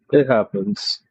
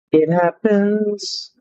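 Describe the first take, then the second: First: Said in the usual way. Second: Slow, drawn out. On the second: Pretend. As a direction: stretch it slowly, higher. Repeats line drawn out.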